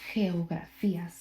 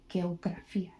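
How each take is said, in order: First: The first sound is a breathy h. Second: The first sound is a hard g. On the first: The speaker calls it right. "You would say ... be pronounced as an H" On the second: The speaker calls it wrong. "You wouldn't say"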